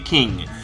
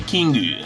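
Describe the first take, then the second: First: It ends on the consonant with no vowel. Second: It ends with an added final vowel. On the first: "they don't say king" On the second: "they say Kingu"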